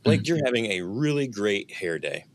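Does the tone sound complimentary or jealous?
complimentary. The tone sounds warm and complimentary. The speaker sincerely admires the hair. "The tone is very complimentary"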